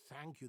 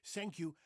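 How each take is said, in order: First: "thank you" with a soft th; "thank you" with th, not s; correct English TH. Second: "thank you" with s for th; "thank you" in a Dutch accent, th as s. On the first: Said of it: "they don't say thank you". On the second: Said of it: "They say thank you". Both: Shown as a demonstration.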